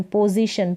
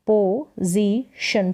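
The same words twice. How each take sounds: First: Said in the usual way. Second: पोजीशन very slowly, as पो, जी, शन; split into syllables. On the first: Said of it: "ये साथ में पढ़ें इसको". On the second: Shown as a demonstration. Teacher sounding out for learners, पोजीशन in three slow parts. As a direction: leave a gap after each syllable of पोजीशन. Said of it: "आगे वाले जो letters हैं उनको पढ़ना है".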